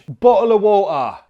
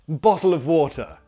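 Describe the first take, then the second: First: It is spoken in a broad Cockney accent. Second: It is spoken in a posh upper-class accent. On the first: "In Cockney" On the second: "and posh"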